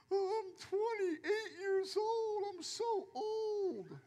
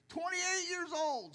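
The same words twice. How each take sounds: First: High, slow, whimpering mockery of a self-pitying youngster; mock whining. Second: High, put-on voice of a self-pitying youngster; mock complaint. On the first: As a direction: whine it out like a crybaby, hammed-up. Mocking twenty-somethings who feel old. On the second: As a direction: parrot them with a mocking high voice. Mocking quote repeated.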